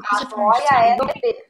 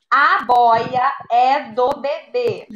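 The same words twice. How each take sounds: First: Said in the usual way. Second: Each word slow and clear; teacher reading the second sentence; slow dictation read. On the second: Shown as a demonstration. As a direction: read it slowly for children. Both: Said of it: "Segunda frase".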